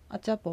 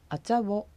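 First: The third consonant is a voiceless p sound. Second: The third consonant is a voiced b sound. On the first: "このアチャポは" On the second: "アチャボと発音しても構いません"

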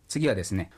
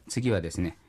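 Both takes have the same delivery.

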